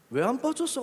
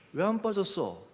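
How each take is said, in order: First: High-pitched impulsive blurt. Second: Mildly pondering, retold question. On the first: Retold or imitated. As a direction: throw the question out before thinking. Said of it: "그냥 일단 질러놨어요". (일단 질러 보는 높은 목소리) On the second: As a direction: ask it again as if thinking it through. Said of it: "그리고 생각하는 거죠". (곱씹어 생각하듯 묻기)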